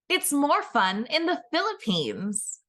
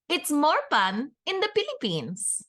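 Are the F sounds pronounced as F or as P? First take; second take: F; P. First: The F sounds are pronounced as F. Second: The F sounds are pronounced as P. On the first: This is the official tourism slogan. "our tourism board loves to boast" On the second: This is how most locals actually say it. "as most Filipinos would actually say it"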